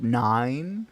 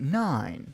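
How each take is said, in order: First: The pitch rises on the word. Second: The pitch falls on the word. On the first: It sounds like a question. The speaker calls it wrong. "I don't like the rising pitch" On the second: It sounds like a statement. The speaker calls it right. "the pitch curve w- will be going down"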